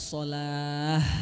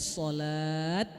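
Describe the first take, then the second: First: The word ends with an h sound. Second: The word ends with a t sound. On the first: The speaker calls it right. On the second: The speaker calls it wrong.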